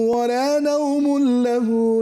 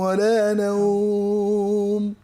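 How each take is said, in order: First: Nawm runs straight into lahu with no lengthening. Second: Nawm stops and is lengthened by one beat. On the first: "কোনো টানলাম না।" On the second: "এক আলিফ টানলাম।"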